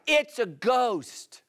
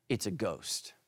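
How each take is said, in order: First: Slow, drawn-out mock cry, higher; scared disciples. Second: Mock fearful cry, much lower and softer; a hushed, spooked mock cry; scared disciples. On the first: Pastor retelling the disciples' cry, slow mock fright. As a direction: stretch it out like a spooked sailor. They cried out. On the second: Pastor voicing terrified disciples in the boat, hushed mock fear. And they cried out.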